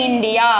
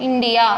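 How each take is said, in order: The two takes are said the same way.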